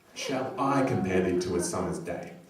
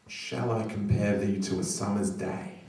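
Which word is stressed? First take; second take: I; shall. First: The word I carries the main stress. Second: The word shall carries the main stress. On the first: The speaker, unlike others, will make the comparison. The speaker calls it right. "Emphasise I" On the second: It sounds like a question of whether to compare. The speaker calls it wrong. "I've always put the emphasis on the word shall"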